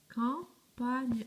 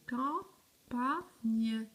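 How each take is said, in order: First: "Campagne" in two parts, cam, then pagne run together; more joined up. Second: "campagne" slowly split into cam, pa, gne; syllable by syllable. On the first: Teacher asking if the words match, reading it more joined up. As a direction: say "Campagne" less chopped, with pagne as one piece. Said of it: "Est-ce que c'est le même?". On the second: Teacher comparing written words for pupils, syllable by syllable. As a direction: sound out "campagne" with a pause after each syllable. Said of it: "Maintenant, regardez". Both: Shown as a demonstration.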